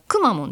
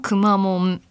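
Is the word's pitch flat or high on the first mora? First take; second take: first high; flat. First: The pitch is high on the first mora. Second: The pitch stays flat across the word. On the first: "くだからくまモンですね" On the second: "平坦なくまモン"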